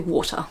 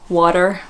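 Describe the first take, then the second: First: The final R sound is dropped entirely. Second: The final R sound is clearly pronounced. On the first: "Australians don't. We say water" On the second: "rhotic R would be like water, like an American has the R"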